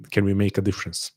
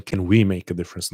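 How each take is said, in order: First: Said in the usual way. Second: Emphasis on "we" in "can we make"; stress on WE. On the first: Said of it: "And I'm saying, can we make a difference?". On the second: Real, not acted. Host including the audience, stress on "we". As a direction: lean on "we", as against "I". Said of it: "Not can I make a difference".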